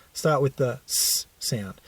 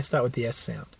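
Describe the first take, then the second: First: "s" said as the hissed sound sss, not ess; letter sound s. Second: "S" said as the letter name ess. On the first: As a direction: give just the s sound, a hiss. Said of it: "Notice I didn't say start with the S sound". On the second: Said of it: "Notice I didn't say". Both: Shown as a demonstration.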